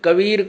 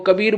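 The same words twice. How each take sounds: First: The middle consonant is a v sound. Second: The middle consonant is a b sound. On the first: This is the standard literary form. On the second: This is how it is said in the mother tongue.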